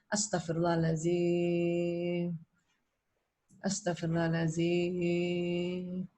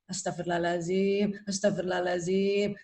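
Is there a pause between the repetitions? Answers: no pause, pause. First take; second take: pause; no pause. First: A short pause separates the two repetitions. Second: The repetitions run together with no pause. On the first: The nose has time to draw in oxygen. The speaker calls it right. "Jadi kita kasih jeda sedikit" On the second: The nose takes in only a little oxygen. The speaker calls it wrong. "hanya kita tidak berikan sedikit jedanya"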